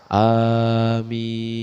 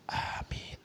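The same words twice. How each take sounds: First: It is said loudly. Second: It is said softly.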